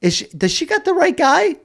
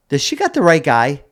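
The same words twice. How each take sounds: First: Much higher, incredulous squeak; can't believe she means you; baffled disbelief. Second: Said in the usual way. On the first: Retold or imitated. Own baffled thought repeated.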